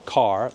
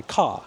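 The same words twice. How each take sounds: First: "car" with a clear R at the end; full R. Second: "car" said as "cah"; non-rhotic New York "car"; dropped R. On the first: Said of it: "They won't say". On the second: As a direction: say "car" with no R at the end. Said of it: "They drop the R sound". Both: Shown as a demonstration.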